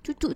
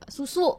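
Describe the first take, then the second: First: The word is said with ch sounds, childlike. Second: The word is said with clear s sounds. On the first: It is cute baby talk. The speaker calls it wrong. "gak boleh diimut-imutin" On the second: It is the proper adult form. The speaker calls it right. "harus yang benar"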